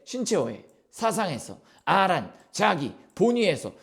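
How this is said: It is broken into chunks with pauses. "끊어 읽는데 ... 그냥 띄어쓰기 단위대로 아니면 본인 느낌대로 근본 없이 무지성으로"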